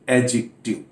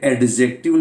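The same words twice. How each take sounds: First: The d sound is silent. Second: The d sound is clearly pronounced. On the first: The speaker calls it right. "डी silent रहता है" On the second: The speaker calls it wrong. "ये एडजेक्टिव नहीं है"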